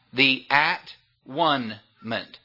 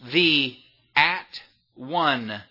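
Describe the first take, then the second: First: The word is broken into three separate parts. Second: The word is broken into three separate parts.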